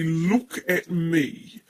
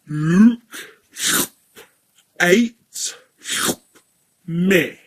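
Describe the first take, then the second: First: The vowels are pronounced in the ordinary way. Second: Each vowel is changed, with consonants kept.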